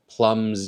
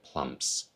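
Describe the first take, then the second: First: The word ends in a buzzing Z sound. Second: The word ends in a hissing S sound. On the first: The speaker calls it right. "these all have a voiced final consonant sound" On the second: The speaker calls it wrong. "None of those have that vocalized Z sound on them"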